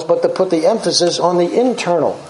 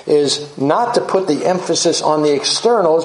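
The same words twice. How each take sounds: First: Internal leaned on with a falling tune, answering externals; preacher stressing internal against externals; contrast stress. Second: Externals leaned on with a falling tune; preacher leaning on externals; contrast stress. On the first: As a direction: land internal as the right emphasis. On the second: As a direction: set up externals as the wrong emphasis. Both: Real, not acted.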